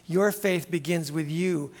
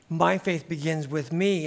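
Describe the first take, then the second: First: Your stressed, falling close. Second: My and me stressed, falling close. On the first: Pastor stressing your to the congregation. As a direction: lean on "your" then let it fall. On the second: Pastor turning it on himself, stressing my. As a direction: put the weight on "My" and "me". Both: Shown as a demonstration.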